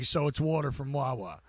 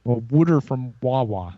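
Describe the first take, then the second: First: "water" with a clear t and open aw vowel; Jersey "water from Wawa". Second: "wooder" said Philly-style with a d. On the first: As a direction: say "water" the Jersey way, not "wooder". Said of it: "I'm from Jersey". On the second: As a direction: Philadelphia "wooder from Wawa". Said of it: "that's basically all you gotta do". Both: Shown as a demonstration.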